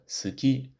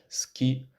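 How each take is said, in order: First: The u vowel is fully voiced and audible. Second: The u vowel is devoiced, nearly silent. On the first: The speaker calls it wrong. "rather than suki" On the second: The speaker calls it right. "pronounced like ski"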